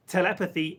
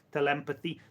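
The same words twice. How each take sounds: First: Said in the usual way. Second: "telepathy" pronounced tuh-LEM-pathy; telepathy as tel-EM-pathy. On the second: Shown as a demonstration. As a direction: say "telepathy" with an em in the middle. Coins a corrected word.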